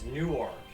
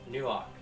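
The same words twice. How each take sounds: First: It is said without an East Coast accent. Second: It is said in an East Coast accent. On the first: "when I say it as Newark" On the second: "with the East Coast accent ... which sounds very much like New York"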